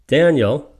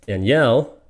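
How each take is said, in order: First: "Daniel" as DAN-yel, first syllable high and loud; boy's name Daniel. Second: "Danielle" as dan-YELL, second syllable stressed; girl's name Danielle. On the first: Teacher telling two names apart, front-stressed Daniel. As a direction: punch the start of "Daniel". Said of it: "I'm probably calling one of the guys". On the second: Teacher telling two names apart, end-stressed Danielle. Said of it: "I'm calling one of the girls". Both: Shown as a demonstration.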